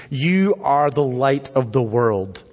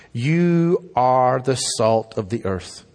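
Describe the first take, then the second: First: "You are the light of the world" read slowly, YOU leaned on; slow, weighty reading stressing "You"; slow scripture reading. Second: "You are the salt of the earth" read slowly, YOU leaned on; slow, weighty reading stressing "You"; slow scripture reading. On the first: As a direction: give the verse slowly, leaning on "You". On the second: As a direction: lay the verse down slowly, opening on "You". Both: Shown as a demonstration. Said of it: "two things here that are emphatic".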